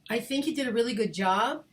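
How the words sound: The pitch rises at the end. The speaker sounds unsure of the praise. The speaker calls it wrong. "you end and your pitch goes up"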